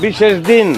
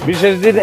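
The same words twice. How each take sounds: The two takes are said the same way.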